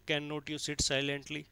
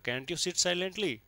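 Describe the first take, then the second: First: It is said calmly, without any anger. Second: It is said angrily, with clear irritation. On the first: The speaker calls it wrong. "ऐसे नहीं कह सकते" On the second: The speaker calls it right. "यहाँ गुस्सा दिखाना पड़ेगा"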